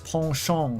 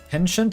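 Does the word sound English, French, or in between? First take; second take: French; English. First: It is said with a strongly French pronunciation. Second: It is said with a fully English pronunciation. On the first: "sounds aggressively French" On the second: "seems too bastardized"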